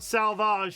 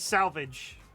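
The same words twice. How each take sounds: First: The word is pronounced in a French style. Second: The word is pronounced in an English style. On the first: The speaker calls it wrong. "It is not salvage" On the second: The speaker calls it right. "it is salvage"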